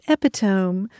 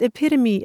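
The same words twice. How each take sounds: First: The word is pronounced the way it is spelled. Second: The word is given its usual pronunciation. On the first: The speaker calls it wrong. "as epitome" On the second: The speaker calls it right. "I like how you pronounced epitome"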